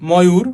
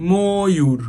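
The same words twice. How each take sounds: First: ময়ূর read as spelled, open অ after ম; as-written pronunciation. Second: ময়ূর drawn out with a round ও after ম, "mo-yur"; spoken pronunciation. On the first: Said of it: "আমরা লিখছি ময়ূর, কিন্তু উচ্চারণ কি করছি". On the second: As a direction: stretch the first syllable of ময়ূর as "moo". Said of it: "কিন্তু উচ্চারণ কি করছি". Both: Shown as a demonstration.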